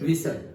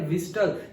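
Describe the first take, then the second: First: The word is said with a silent t. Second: The word is said with a pronounced t. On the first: This is how it was said in the past. "जब मैं school में school में था तो हम बोलते थे विसल" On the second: This is how it is said now. "अभी इंग्लिश में सही प्रोनाउंसिएशन क्या है, ... ये टी बोलना है।"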